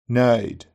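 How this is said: The ee vowel glides from the centre of the mouth. "Red text, read in Brummie, followed by GB"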